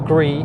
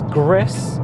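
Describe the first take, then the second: First: The word is said with a French pronunciation. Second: The word is said with an English pronunciation. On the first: The speaker calls it right. "it's actually French for grey, so it's Gris" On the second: The speaker calls it wrong. "which I mispronounced as Gris"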